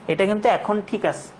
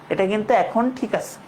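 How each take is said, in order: No difference in how they are said.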